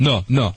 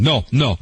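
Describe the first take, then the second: No difference in how they are said.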